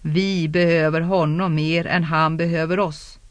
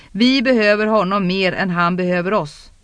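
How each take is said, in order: First: Even, measured echo of a remark; restrained, level repetition; echoing words. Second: Mildly insistent, pressing the point; a touch more raised and forceful; emphatic argument. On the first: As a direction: let the words hang, understated. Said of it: "Orden tycktes genljuda i rummet". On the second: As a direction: drive the point home with some force. Urgent argument, later echoed in narration. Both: A narrator's reading.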